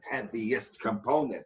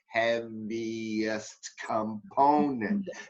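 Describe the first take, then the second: First: The phrase is said at normal speed. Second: The phrase is said very slowly. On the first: "Like a train building speed" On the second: "Slow motion"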